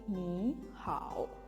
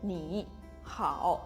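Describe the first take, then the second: First: Ni rises steadily before the dipping hao. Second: Ni falls and then rises, like hao. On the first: "nada yang pertama itu berubah menjadi nada kedua agar lebih lancar" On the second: "Kalau dibaca dengan sempurna harusnya menjadi ni hao"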